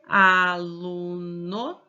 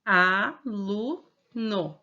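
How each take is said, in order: First: "aluno" dito bem devagar, sílaba por sílaba; syllables drawn out. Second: "Aluno" slowly, each syllable pulled apart; syllables drawn out. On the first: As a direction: stretch out each syllable of "aluno". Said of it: "se eu falar assim". (separando as sílabas de "aluno" bem devagar) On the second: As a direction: say "Aluno" one beat per syllable. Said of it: "quantos impulsos eu tive na minha voz". ("Aluno" bem devagar, sílaba por sílaba) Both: Shown as a demonstration.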